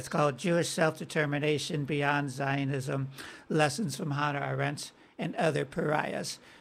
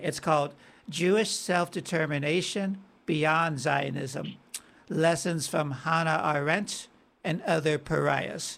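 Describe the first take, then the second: First: The title is said quickly. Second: The title is said slowly.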